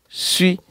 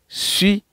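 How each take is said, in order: The two takes are said the same way.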